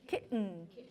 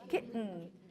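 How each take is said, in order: First: The middle consonant is a glottal stop. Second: The same.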